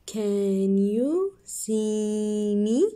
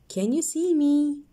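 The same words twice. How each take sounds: First: Very slow, stretched question; slow reading. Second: Higher, quicker question; high bright question. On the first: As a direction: drag each word out. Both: Shown as a demonstration. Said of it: "So let's read".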